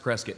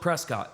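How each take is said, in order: First: The name is said the way locals say it. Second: The name is said the way it is spelled. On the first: The speaker calls it right. "They pronounce it Prescott" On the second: The speaker calls it wrong. "It's spelled Prescott"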